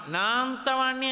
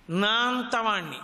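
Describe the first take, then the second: First: నా అంతవాణ్ణి lifted higher, puffed with pride; proud boast. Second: Slow, weighty నా అంతవాణ్ణి with a falling end; slow boast. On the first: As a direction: repeat నా అంతవాణ్ణి higher, more self-important. (ఎత్తైన స్వరంలో గర్వంగా నా అంతవాణ్ణి) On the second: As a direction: draw out అంతవాణ్ణి as if savouring self-importance. (నెమ్మదిగా గర్వంగా నా అంతవాణ్ణి) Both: Shown as a demonstration. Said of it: "అన్నాడంటే ఏదో ఒక విభూతి".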